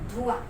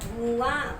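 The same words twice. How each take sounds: First: The first vowel is a short u sound. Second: The first vowel is a long u sound. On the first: The speaker calls it right. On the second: The speaker calls it wrong.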